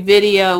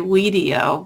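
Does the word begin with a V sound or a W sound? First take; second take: V sound; W sound. First: The word begins with a V sound. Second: The word begins with a W sound. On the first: The speaker calls it right. "probably supposed to be video with the W pronounced like a V" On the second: The speaker calls it wrong. "I say Wideo"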